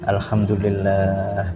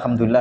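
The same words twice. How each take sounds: First: It is said slowly and deliberately. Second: It is said quickly, without lingering. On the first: It is truly felt and reflected upon. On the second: It is just said along with the group. "ya kita ikut gitu aja"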